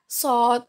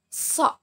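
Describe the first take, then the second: First: A plain, light s sound with an o vowel. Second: A heavy s sound with the tongue back raised. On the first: The speaker calls it wrong. "Bukan sin yang di-o-kan. Sod, sod, bukan" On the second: The speaker calls it right. "ujung lidah itu menempel pada gigi seri bawah. So, so, so, dan pangkal lidah uh, sedikit naik ke atas"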